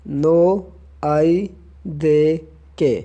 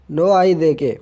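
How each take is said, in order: First: "नो आई दे के" slowly, a gap after each word; word-by-word breakdown. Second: Said in the usual way. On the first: Shown as a demonstration. Teacher breaks the reply down for learners, word by word.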